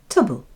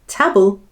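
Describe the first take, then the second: First: The vowel is reduced to a schwa. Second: The vowel is a full, clear vowel. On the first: The speaker calls it right. "we say tubble" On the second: The speaker calls it wrong. "instead of saying table"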